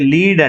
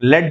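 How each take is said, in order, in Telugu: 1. అచ్చు దీర్ఘం, 'see' లో లాగా. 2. అచ్చు హ్రస్వం, 'bed' లో లాగా. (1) "దాన్ని మనం ఎలా పిలుస్తామంటే లీడ్ అంటాం" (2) "దాన్ని ఏమంటామంటే లెడ్ అని పలుకుతాం"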